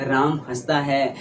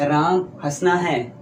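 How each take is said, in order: First: Slow हंसता है with stress on हंसता; correct form. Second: Slow हंसना है as the mistake; wrong form. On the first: Teacher gives students the right version, slow and stressed. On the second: Teacher shows the sentence we never say, slow. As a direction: drag out हंसना है like an error. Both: Shown as a demonstration. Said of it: "हम ऐसा नहीं बोलते हैं".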